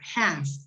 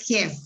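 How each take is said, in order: First: The vowel sounds between 'a' and 'e'. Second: The vowel sounds like a Spanish 'e'. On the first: The speaker calls it right. "Es como entre A y E" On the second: The speaker calls it wrong. "tampoco es half"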